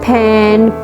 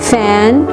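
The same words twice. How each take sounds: First: It begins with a puffed p sound instead. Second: It begins with an f sound, lip on teeth. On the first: The speaker calls it wrong. "वो उसको फा में convert कर देता है" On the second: The speaker calls it right. "ये proper pronunciation है first sound की"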